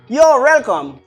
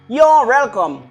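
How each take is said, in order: First: You are is contracted into one syllable. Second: The same.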